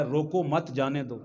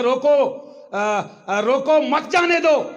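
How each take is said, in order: First: Low, soft روکو مت run together, then جانے دو; quietly regroup it as روکو مت، جانے دو; innocent, softened reading joining مت to روکو; shifted phrasing. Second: Raised, high-pitched policeman's command; high, drawn-out order with a break after روکو; urgent stop order. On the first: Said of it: "تھوڑا آگے پیچھے کر کے آواز کو کیا". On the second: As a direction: call out to stop the truck. Policeman orders a truck stopped. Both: Acted.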